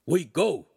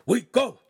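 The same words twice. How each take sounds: First: Louder, higher barked order; dog bark. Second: Much higher, much louder barked order. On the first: Dogface ordering departure, barked. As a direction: snap it like a bark. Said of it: "Dogface barked". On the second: Dogface repeating the order as Charlene clings, loud bark. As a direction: bark it harder. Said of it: "he repeated". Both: Acted.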